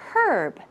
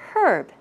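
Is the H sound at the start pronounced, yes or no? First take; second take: yes; yes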